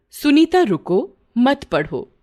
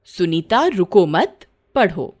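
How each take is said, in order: First: Sunita रुको, then a break before मत पढ़ो; pause after रुको. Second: सुनीता रुको मत run together slowly, then पढ़ो; slow रुको मत as one phrase, break, then पढ़ो; pause after मत. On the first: Teacher wrongly telling Sunita to stop reading, pause after रुको. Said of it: "वाक्य को बोलते समय अध्यापिका ने गलती की". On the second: Teacher's corrected order to keep reading, pause after मत. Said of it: "उन्हें वाक्य इस प्रकार कहना चाहिए था". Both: Shown as a demonstration.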